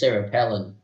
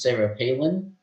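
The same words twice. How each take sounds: First: Palin is said with the British pronunciation. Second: Palin is said with its usual pronunciation.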